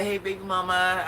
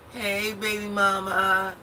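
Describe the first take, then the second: First: Higher, louder smooth greeting; imitating slick ex. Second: High, slow smooth-talker greeting; imitating her slick ex. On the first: Ex greeting her as he walks out, lightly mock slick. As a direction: lightly play the ex trying to charm her. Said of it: "he's like". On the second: Ex greeting his baby mama outside at one in the morning, mock slick. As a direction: stretch it out like a man who thinks he's slick. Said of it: "This is what he say".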